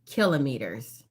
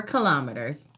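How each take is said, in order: First: "kilometers" as KIL-uh-mee-ters; first-syllable stress. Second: "kilometers" as kih-LOM-uh-ters; second-syllable stress. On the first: Quiz host offering one way to say it, "kilometers" as KIL-uh-mee-ters. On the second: Quiz host offering the other way to say it, "kilometers" as kih-LOM-uh-ters. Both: Shown as a demonstration. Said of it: "however you say it".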